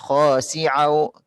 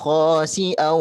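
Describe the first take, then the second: First: It has a throaty ain sound in the middle. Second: It has a clear glottal stop in the middle. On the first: The speaker calls it wrong. "Bukan khasi'au kayak huruf ain" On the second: The speaker calls it right. "hamzahnya perlu diperjelas"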